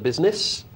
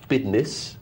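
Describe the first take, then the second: First: The middle consonant is a clear s sound. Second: The middle consonant is a d sound. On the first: It is the standard way to say it. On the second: It is the slangy youthful way to say it.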